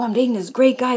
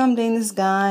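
First: It sounds excited and eager. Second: It sounds hesitant and unenthusiastic.

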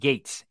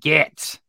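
First: The vowel is long, as in 'gate'. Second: The vowel is short, as in 'cat'. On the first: The name is said the usual way. "not Gates" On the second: The name is deliberately said in a mocking way. "I call him Gats"

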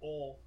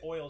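First: The vowel is a plain o without glide. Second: The vowel glides from o toward ee. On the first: The speaker calls it wrong. "she says ol" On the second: The speaker calls it right. "She doesn't say oil"

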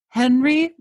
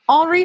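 First: The name is said with an English accent. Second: The name is said with a French accent. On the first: The speaker calls it wrong. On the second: The speaker calls it right.

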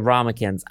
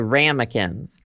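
First: It is said with a British pronunciation. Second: It is said with an American pronunciation.

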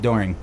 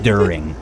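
First: It has the New Jersey 'door' vowel. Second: It has the standard 'U' vowel.

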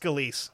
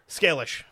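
First: The name is said as Scalise. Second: The name is said as Scalish. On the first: The speaker calls it right. "But it's pronounced Scalise" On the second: The speaker calls it wrong. "How did you pronounce it before? Scalish. Because that's how it's spelled"

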